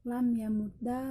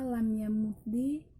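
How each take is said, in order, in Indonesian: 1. Kata itu diakhiri dengan vokal a. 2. Kata itu diakhiri dengan vokal i.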